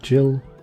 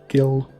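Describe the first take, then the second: First: It begins with a soft J sound. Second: It begins with a hard G sound. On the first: The speaker calls it wrong. "I don't know why I said it like Jill" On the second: The speaker calls it right. "I've never said it that way in my whole life"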